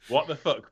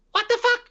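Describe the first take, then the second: First: Mildly raised pitch, imitating a game sample; high-pitched, run together. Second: Tiny squeaky, very high and loud yelp; high-pitched voice sample. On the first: Gamer describing the voice sample again, mildly high-pitched and run together. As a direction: run it together as one word, lightly high. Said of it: "all as one word and really high-pitched". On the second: Retold or imitated. Gamer mimicking a battle sample from a dubbed game, very high-pitched. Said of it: "in a really high-pitched voice".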